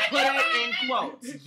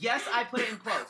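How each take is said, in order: First: Loud and insistent; high, loud stress on the quotes; loud emphatic. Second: Said in the usual way. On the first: Real, not acted.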